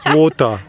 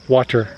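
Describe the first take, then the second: First: It is said with a non-American accent. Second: It is said with an American accent. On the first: "See how she says it? She says wa- water" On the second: "in American English we say water"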